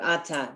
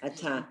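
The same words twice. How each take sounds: First: The stress is on the first syllable. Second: The stress is on the second syllable. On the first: "they've been putting the stress on the first syllable" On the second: This is how an Israeli speaker says it. "he would be saying Ata"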